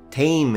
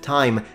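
First: The vowel sounds like 'ay'. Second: The vowel sounds like 'eye'. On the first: This is a conservative regional pronunciation. "the Scottish accent... when they say orate, tame" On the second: This is the standard modern pronunciation. "instead of time"

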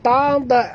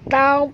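First: The final consonant ends with a bounce. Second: The final consonant ends without a bounce. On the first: The speaker calls it wrong. "bukan taub" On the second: The speaker calls it right. "jangan lantunkan dia"

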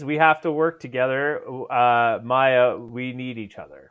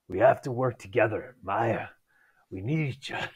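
First: It is said in the speaker's normal voice. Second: It is said imitating Kingpin's voice.

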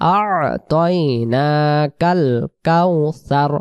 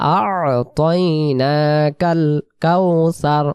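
Both takes have the same delivery.

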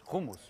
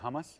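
First: The word is said with a native pronunciation. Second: The word is said with an American pronunciation. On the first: This is the authentic way to say it. The speaker calls it right. "but it's hummus" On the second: This is how locals say it. The speaker calls it wrong. "people here say hummus"

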